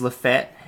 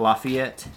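First: The name is said the local Alabama way. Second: The name is said a non-local way. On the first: This is how people in Alabama say it. The speaker calls it right. "it is Lafayette" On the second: This is how people outside Alabama say it. The speaker calls it wrong. "If you live in Alabama, it's not Lafayette"

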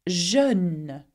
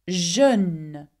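Both takes have the same delivery.

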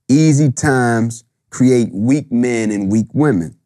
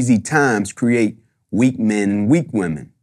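First: It is said more slowly and deliberately. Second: It is said fast, like a stage speech.

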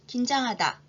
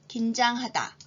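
First: The word is said at a fast pace. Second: The word is said at a slow pace. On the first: "이번엔 빠른 속도로 해볼까요?" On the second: "천천히 두 번 읽겠습니다"

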